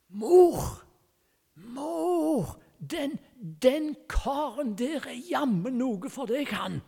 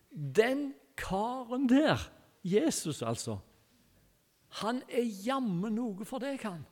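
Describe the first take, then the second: First: Put-on a five-year-old blurting loudly, high and excited, meaning to whisper; child's loud would-be whisper. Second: Said in the usual way. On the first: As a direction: tug at mum's sleeve and shout it, thinking it's a whisper. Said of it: "så kviskrer han. Altså, det vil si, han trodde at han kviskret". (høyt barnerop som skulle vært kvisking) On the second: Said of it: "preacher repeats the boy's words".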